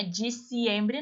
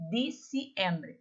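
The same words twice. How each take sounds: First: "diciembre" with a Portuguese dj before i; wrong dj sound. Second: Slow "diciembre" with a plain d; Spanish d. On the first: Teacher shows students the sound to avoid. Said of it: "não é diciembre". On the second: Teacher models the Spanish d for students. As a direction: say "diciembre" slowly, no dj. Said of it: "Língua entre os dentes". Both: Shown as a demonstration.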